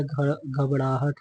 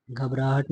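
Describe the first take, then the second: First: घबराहट slowly, as ghab-ṛaa-hat; correct form घबड़ाहट. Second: घबराहट, tongue-tip r in raa; wrong form घबराहट. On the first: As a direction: say घबराहट with a flapped ṛ for the r. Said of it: "होता है". (घबराहट को 'घबड़ाहट' बोलकर) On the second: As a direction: say घबराहट with a plain r. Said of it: "नहीं होता है". (घबराहट, सादे 'र' के साथ) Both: Shown as a demonstration.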